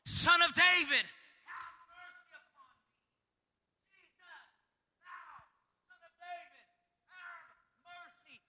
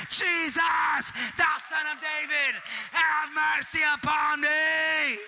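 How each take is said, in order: First: High, strained plea trailing off soft; pleading cry. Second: Desperate shout. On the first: Blind Bartimaeus begging Jesus, high pleading cry. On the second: Bartimaeus crying out to Jesus, full desperate shout. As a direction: cry it out with everything. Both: Acted. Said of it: "he cried out all the more".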